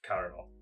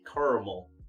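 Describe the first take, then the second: First: It is said with a British accent. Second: It is said with an American accent.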